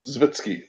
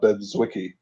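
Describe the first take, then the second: First: The middle of the name sounds like 'vits'. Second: The middle of the name sounds like 'wick'. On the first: The speaker calls it right. "That's right" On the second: The speaker calls it wrong. "I feel like I pronounced that wrong"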